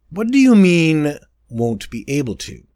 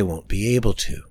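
First: Wary. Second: Said in the usual way. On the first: A narrator's reading. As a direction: ask it warily, suspecting trouble. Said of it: "I asked warily".

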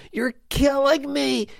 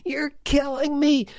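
First: High, pained cry on "killing"; mock anguish. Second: Even higher pained cry landing on "me"; mock anguish. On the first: Owner moaning at a weak player, high mock anguish. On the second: Owner repeating his lament, higher mock anguish. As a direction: push "me" up high, mock agony.

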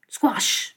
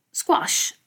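First: With a shiver. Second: A sudden breathy whispered "Squash!" of alarm; startled exclamation. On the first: Mouse facing the cartoon cat, mildly frightened. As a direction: let a small shudder of fear color "Squash". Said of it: "disse il topolino con un brivido". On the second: Comic mouse smells a cat, startled whisper. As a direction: gasp "Squash!" out on the breath, unvoiced. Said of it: "esclamò subito". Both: A narrator's reading.

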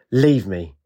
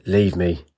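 First: Mild mock roar on Leave me; understated commanding roar. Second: Low curt bark on Leave me; a gruff low brush-off. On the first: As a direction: order them away, not truly deep. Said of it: "In a deep roaring voice, Ajax commanded". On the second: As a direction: snap her away, lower and short. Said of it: "but he barked". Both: A narrator's reading.

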